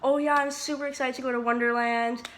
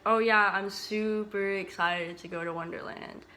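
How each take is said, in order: First: The voice sounds genuinely excited and enthusiastic. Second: The voice sounds sarcastic and unenthusiastic. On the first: The speaker really is excited. "you could tell I was genuinely excited" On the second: The speaker is not actually excited. "It sounded like I was being sarcastic"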